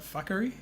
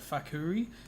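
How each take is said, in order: First: The name sounds like the word 'fuckery'. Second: The name ends with a clear 'koo-ree' sound. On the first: The speaker calls it wrong. "he keeps saying it like fuckery" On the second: The speaker calls it right. "so it's more like Fakuri"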